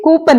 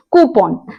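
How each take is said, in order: First: कूपन said "koo-pun", pitched up as the mistake; mock the common कूपन with "pun"; the mistaken कूपन, raised and questioning; wrong pronunciation. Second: कूपन said "koo-pon", settled and falling; the right कूपन, calm and final; correct pronunciation. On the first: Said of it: "कूपन नहीं". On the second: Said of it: "कूपन नहीं, कूपन". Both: Shown as a demonstration.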